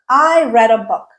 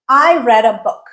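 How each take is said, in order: The two takes are said the same way.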